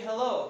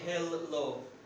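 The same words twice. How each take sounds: First: The l sound is short, said once. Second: The l sound is held long, doubled. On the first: The speaker calls it right. "With one L" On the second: The speaker calls it wrong. "We don't say hello"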